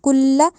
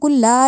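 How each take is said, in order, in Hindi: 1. L के बाद वाला स्वर छोटा रखा जाता है। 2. L के बाद वाला स्वर लंबा खींचा जाता है। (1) "लाम के बाद कोई अलिफ नहीं है" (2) "इसको कुल्ला नहीं पढ़ना"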